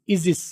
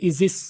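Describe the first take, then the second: Both takes have the same delivery.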